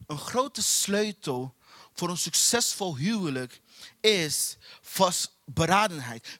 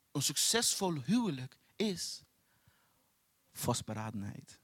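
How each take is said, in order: First: "vast beradenheid" slow and punched, split into two beats; stress on vast beradenheid. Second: Said in the usual way. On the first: Real, not acted. Preacher repeats the marriage key to the congregation, slow and stressed. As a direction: lean hard on "vast beradenheid", slowly.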